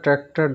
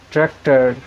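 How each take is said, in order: First: A British accent, with the final r silent. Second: An American accent, with the final r sounded. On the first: "এইভাবে ব্রিটিশরা এগুলিকে উচ্চারণ করে" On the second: "অ্যাক্টর, ট্র্যাক্টর, ডাক্তার, অ্যাঙ্কার এগুলো আর উচ্চারণ করে থাকে"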